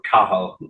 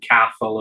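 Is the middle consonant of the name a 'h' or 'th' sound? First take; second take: h; th. First: The middle consonant is a plain h sound. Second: The middle consonant is a th sound. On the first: The speaker calls it right. "it's pronounced Cahal because you don't pronounce the T" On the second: The speaker calls it wrong. "I've been calling him Cathal as well"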